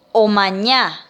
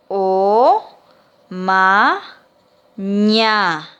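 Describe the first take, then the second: First: Said in the usual way. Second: "O, ma, ña" as three separate, stretched syllables; syllable-by-syllable dictation. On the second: Shown as a demonstration. Teacher dictating to pupils, "O, ma, ña" syllable by syllable. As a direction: pause after each piece of "O, ma, ña". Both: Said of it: "Entonces le dicto".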